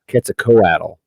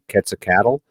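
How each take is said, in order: First: The ending has an O sound before the L. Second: The ending sounds like the word cattle. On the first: "you could just put an O in there" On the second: "instead of saying cattle, because you could say Quetzalcoatl"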